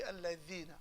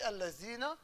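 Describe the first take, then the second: First: "al-lazina" with dh, as in English "this", not z; correct dh sound. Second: "al-lazina" with a z in place of dh. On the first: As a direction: show the proper reading, tongue between teeth for "al-lazina". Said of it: "It should be al-lazina". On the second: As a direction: show the wrong reading, a buzzing z in "al-lazina". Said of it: "It shouldn't be al-lazina". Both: Shown as a demonstration.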